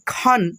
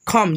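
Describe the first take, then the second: First: The syllable ends with an n sound. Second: The syllable ends with an m sound. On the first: "पढ़ेंगे खन" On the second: "कभी कभी पढ़ते हैं खम"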